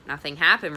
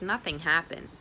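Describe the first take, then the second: First: Louder, disbelieving echo; father repeating his daughter's words in disbelief; father's incredulous repeat. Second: Said in the usual way. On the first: Acted. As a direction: throw the words back in disbelief. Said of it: "repeated her father".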